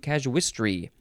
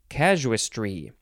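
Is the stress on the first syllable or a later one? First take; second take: later; first. First: The stress is not on the first syllable. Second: The stress is on the first syllable. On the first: The speaker calls it wrong. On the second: The speaker calls it right.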